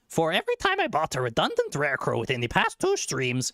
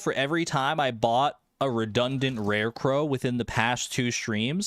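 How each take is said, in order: First: It is said in a put-on cartoon character voice. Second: It is said in the speaker's natural voice.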